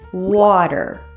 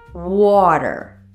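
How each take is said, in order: First: The middle T is a soft D-like flap. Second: The middle T is a soft D-like flap.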